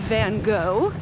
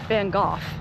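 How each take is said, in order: First: The name is said with an American pronunciation. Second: The name is said with a European pronunciation. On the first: "If you're American, we say" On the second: "If you're European and pronounce it correctly"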